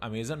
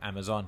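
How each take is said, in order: First: The last syllable has a short 'a' vowel. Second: The last syllable has an open 'o' vowel. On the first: The speaker calls it wrong. "आप लोग अमेज़न मत बोला करिए" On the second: The speaker calls it right. "सही pronunciation जो है वो अमेज़ॉन है"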